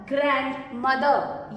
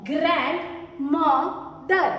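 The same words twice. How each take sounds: First: Said in the usual way. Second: "ग्रैंडमदर" very slow, split as ग्रैंड, म, दर; syllable by syllable. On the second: Shown as a demonstration. Teacher shows learners the word's pieces, "ग्रैंडमदर" slowly syllabified. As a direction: break "ग्रैंडमदर" into separate syllables. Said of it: "दो टुकड़े हुए words".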